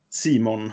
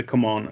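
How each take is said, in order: First: "Simon" as one word, first pronunciation option; name read as "Simon". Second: "Command" said like English "come on"; name read as "come on". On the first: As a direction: pronounce CMON like the name "Simon". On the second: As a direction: pronounce "Command" as "come on", the alternative reading. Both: Shown as a demonstration. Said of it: "eller hur det nu uttalas".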